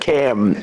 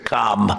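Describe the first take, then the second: First: The vowel is like the one in 'cat'. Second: The vowel is like the one in 'father'. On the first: This is the guest's own first name. The speaker calls it right. "It's Cam, right? Cam" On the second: This is the other, disliked bearer of the name. The speaker calls it wrong. "as opposed to Com"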